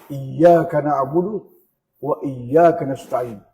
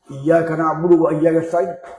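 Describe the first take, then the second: First: The phrase is recited slowly and with feeling. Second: The phrase is recited quickly and hurriedly. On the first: It is read while reflecting on its meaning. The speaker calls it right. "Kita membaca Al-Quran untuk dihayati" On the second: It is read without attention to its meaning. The speaker calls it wrong. "Jadi bagaimana itu dia baca itu? ... Tak ada artinya"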